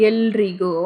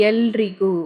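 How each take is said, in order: No difference in how they are said.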